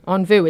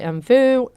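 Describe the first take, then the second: First: The name is said with a French pronunciation. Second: The name is said with an English pronunciation. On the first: "is how I would say it if it was in France" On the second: "I hope I pronounced that right"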